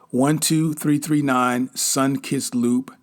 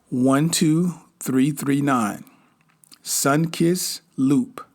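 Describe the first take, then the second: First: It is read at normal speed. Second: It is read more slowly.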